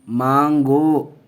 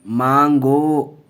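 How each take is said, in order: No difference in how they are said.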